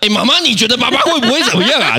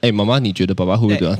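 First: It is said especially loudly. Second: It is said at a normal volume.

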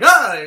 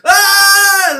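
First: The scream is short and quick. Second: The scream is long and drawn out.

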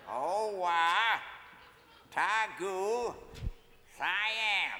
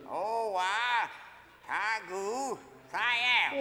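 First: It is said at a normal speed. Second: It is said faster.

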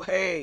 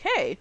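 First: It is said in a put-on deep voice. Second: It is said in a plain, normal voice. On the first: "There's no deep voice. There's no" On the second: "It's like"

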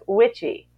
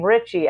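First: The name begins with a W sound. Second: The name begins with an R sound. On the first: "they would say your name, Richie, as witchy" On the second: "your name"

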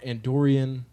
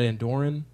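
First: The word ends in a longer '-ree-an' sound. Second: The word ends in a short '-ran' sound. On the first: The speaker calls it wrong. "Do you call it Andorian?" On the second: The speaker calls it right. "we believe that Andorran is the correct pronunciation"

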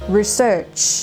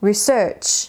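First: The stress is on the second syllable. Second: The stress is on the second syllable.

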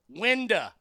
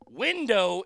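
First: The word ends in a reduced 'uh' sound. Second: The word ends in a full 'oh' sound.

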